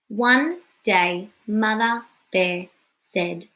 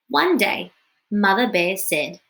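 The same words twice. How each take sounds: First: It is read haltingly, word by word. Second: It is read smoothly, like natural talking. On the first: The speaker calls it wrong. "that didn't sound very good" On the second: The speaker calls it right. "read that fluently so that it sounds like talking"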